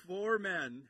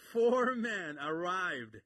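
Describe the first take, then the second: First: Said in the usual way. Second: "four men arrived" slow and louder, leaning hard on four; slow emphatic four. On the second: Shown as a demonstration. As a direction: stretch out four with a laugh of wonder. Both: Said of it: "it's amazing".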